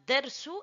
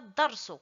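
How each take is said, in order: First: The first vowel is a thin, e-like sound. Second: The first vowel is an open a sound. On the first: The speaker calls it right. "faut dire dersu" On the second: The speaker calls it wrong. "et non pas darsu"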